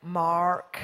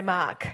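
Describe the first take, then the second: First: Imitated American "Mark", low and drawn out with a hard R; mock American pronunciation of "Mark"; American accent. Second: Australian "Mark", long open vowel, no R; demonstrating Australian pronunciation of "Mark"; Australian accent. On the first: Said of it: "You all Americans go". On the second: Shown as a demonstration. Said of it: "And we say".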